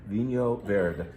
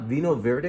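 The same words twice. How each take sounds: First: The name is said in a Portuguese-sounding way. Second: The name is said in an anglicized way. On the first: The speaker calls it right. "the correct pronunciation of this wine type is Vinho Verde" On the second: The speaker calls it wrong. "it's not Vinho Verde"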